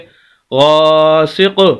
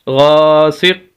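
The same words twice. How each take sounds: First: The final q ends with a small bouncing echo. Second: The final q stops dead with no echo. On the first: "अगर हम कलकला करेंगे ... ये कलकला होगा" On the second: "अगर हम यहाँ पर कलकला ना करें काफ के ऊपर ... हम लफ्ज़ को आखिर में बिल्कुल छोड़ देंगे"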